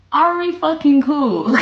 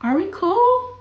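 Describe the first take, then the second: First: Slow, high, emphatic "fucking cool"; insistent. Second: High, rising question at normal volume. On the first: Streamer repeating the friendship question, insistent on "fucking cool". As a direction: draw out "fucking cool" slowly and forcefully. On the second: Streamer asking if the friendship holds, questioning. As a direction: ask it high and lightly. Repeats question, then with swearing. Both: Acted.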